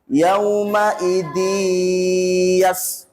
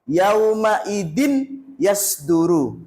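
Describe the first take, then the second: First: The n merges into y with a long nasal hum. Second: The n is said clearly and quickly, no hum. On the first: The speaker calls it right. "masuk ke huruf ya ... dan mendengung" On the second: The speaker calls it wrong. "contoh yang salah"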